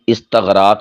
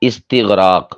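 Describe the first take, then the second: First: The vowel after 'st' is a short 'a'. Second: The vowel after 'st' is a short 'i'. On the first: The speaker calls it wrong. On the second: The speaker calls it right.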